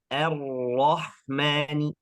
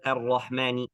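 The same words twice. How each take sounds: First: The doubled r is held clearly and flowing. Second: The doubled r is rushed and short. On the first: The speaker calls it right. "tasydidnya jelas, harus mengalir" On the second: The speaker calls it wrong. "bukan ar-rahmani"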